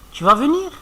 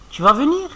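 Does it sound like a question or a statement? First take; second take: question; question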